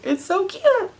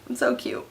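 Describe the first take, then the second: First: High, squealing gush over something adorable. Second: Softer, hushed gush; soft sigh. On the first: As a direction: squeal it like you can't handle the cuteness. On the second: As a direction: breathe it out softly, melted. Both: Real, not acted. Gushing over cute commercial.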